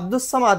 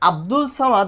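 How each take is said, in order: First: An S sound comes before 'Samad'. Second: An L sound comes before 'Samad'. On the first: The speaker calls it right. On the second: The speaker calls it wrong.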